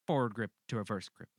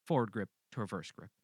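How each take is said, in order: Both takes have the same delivery.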